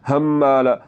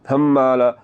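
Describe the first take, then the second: The two takes are said the same way.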